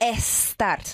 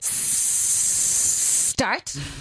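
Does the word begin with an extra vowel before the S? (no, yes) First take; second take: yes; no. First: An extra vowel sound comes before the S. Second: The word begins directly with a long S. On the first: The speaker calls it wrong. "you do not say estart" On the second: The speaker calls it right. "You have to begin with a long S sound"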